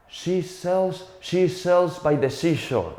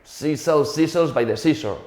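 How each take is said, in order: First: SHE and SEASHORE said with a clear "sh"; high, deliberate tongue twister, hushing the "sh" in SHE and SEASHORE. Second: SHE said as "see", SEASHORE as "seasore"; plain "s" for every "sh" in SHE and SEASHORE; SH turned into S. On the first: Old acting teacher setting a tongue twister, crisp "sh" in SHE and SEASHORE. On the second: Spanish student attempting the tongue twister, SHE and SEASHORE with "s" for "sh". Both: Retold or imitated. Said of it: "we don't have that sh sound".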